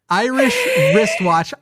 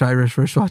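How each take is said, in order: First: Irish has a distinct melody set apart from wristwatch. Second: Both words are said on a flat pitch. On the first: The speaker calls it right. "I have to change the melody of the word to be distinctly different from wristwatch" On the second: The speaker calls it wrong. "now try without doing anything melodious"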